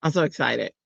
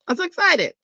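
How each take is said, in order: First: Said in the usual way. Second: Jumps way up high on the repeat; squealing excitement. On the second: Real, not acted. Showing viewers her new stickers, squealing excitedly.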